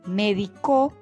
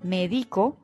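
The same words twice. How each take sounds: First: The stress is on the last syllable. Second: The stress is on the second syllable. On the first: It means someone treated medically, in the past. "Médico es un verbo en tercera persona y en tiempo pasado" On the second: It means I treat medically, now. "Médico es un verbo en primera persona y en tiempo presente"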